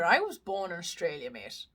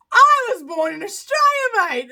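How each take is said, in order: First: Low, soft slip into an Irish accent. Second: High, loud, hammed-up Australian accent. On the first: Real, not acted. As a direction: say it with an unintended Irish lilt. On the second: Shown as a demonstration. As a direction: redo it in broad Aussie, through amusement. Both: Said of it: "I said that in an Irish accent".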